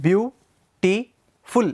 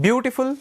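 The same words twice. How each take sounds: First: "beautiful" drawn out very slowly as beau-ti-ful; beautiful split into syllables. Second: Said in the usual way. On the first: Shown as a demonstration. Teacher sounding out "beautiful" syllable by syllable for students. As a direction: pull "beautiful" apart into three slow beats. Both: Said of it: "three syllables".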